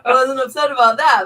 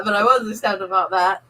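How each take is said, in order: First: "that" pressed and falling at the end; stress on that. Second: "was" stretched with a rising tune; stress on was. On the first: Wife mocking husband's excuse, stress on "that". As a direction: lean on "that", let it drop. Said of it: "I wasn't upset that I had to go get your bumper". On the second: Wife mocking husband's excuse, rising stress on "was". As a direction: push the word "was" up and long. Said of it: "It was just upset that we had to go". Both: Shown as a demonstration.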